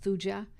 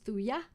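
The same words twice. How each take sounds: First: The J sound is pronounced in the word. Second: The J sound is left silent in the word. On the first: The speaker calls it wrong. "Some people pronounce Thuja" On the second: The speaker calls it right. "the J is silent. ... I believe the correct pronunciation is Thuja"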